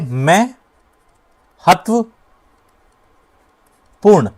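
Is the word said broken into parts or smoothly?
broken. The word is broken into separate parts.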